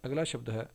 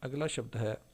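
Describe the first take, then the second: No difference in how they are said.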